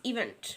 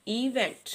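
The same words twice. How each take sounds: First: Said in the usual way. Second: इवेंट drawn out in two beats, ई, वेंट; split into syllables. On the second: Shown as a demonstration. Teacher showing children a two-syllable word, इवेंट said syllable by syllable. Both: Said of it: "ये two syllable word है".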